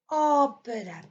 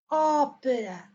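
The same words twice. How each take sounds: No difference in how they are said.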